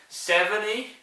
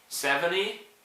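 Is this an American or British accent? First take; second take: American; American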